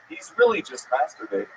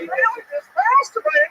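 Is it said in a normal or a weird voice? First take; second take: normal; weird. First: It is said in his normal voice. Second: It is said in a weird put-on voice.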